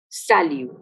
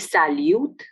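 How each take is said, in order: First: The final t is silent. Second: The final t is pronounced. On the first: The speaker calls it right. "but salut" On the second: The speaker calls it wrong. "we don't say salute"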